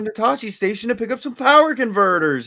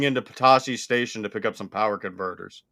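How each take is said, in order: First: It is said with lively, varied pitch. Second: It is said flat, with little pitch variation. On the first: The speaker calls it right. "instead of going like" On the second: The speaker calls it wrong. "he was like so monotone with it"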